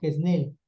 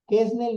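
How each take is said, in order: First: The stress is on the last syllable. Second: The stress is on the first syllable. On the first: The speaker calls it right. "es aguda" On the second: The speaker calls it wrong. "no es"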